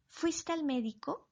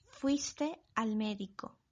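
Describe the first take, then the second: First: "¿Fuiste al médico?" pitched higher, rising at the end; question intonation. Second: Said in the usual way. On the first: Shown as a demonstration. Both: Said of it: "Veamos más ejemplos".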